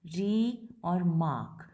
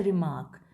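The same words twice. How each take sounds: First: Long "री", then "मार्क", slow and separate; split into syllables. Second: Said in the usual way. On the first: Shown as a demonstration. Teacher counting syllables, "री और मार्क" drawn out apart. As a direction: stretch "री" and "मार्क" as two slow parts. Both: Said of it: "कितने syllables हो गए total".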